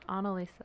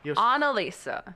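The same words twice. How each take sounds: First: The name is said quietly, with little energy. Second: The name is said loudly, with strong energy. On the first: The speaker calls it wrong. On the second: The speaker calls it right.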